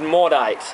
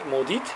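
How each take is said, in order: First: The name is said with an English-style ending. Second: The name is said without an English-style ending. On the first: "That's more of a an English American type of way of pronouncing it" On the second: "I think that's how you pronounce it"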